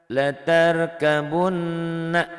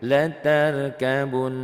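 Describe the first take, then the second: First: The word ends with a short vowel. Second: The word ends with a consonant. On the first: The reading continues into the next word. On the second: The reading stops at this word.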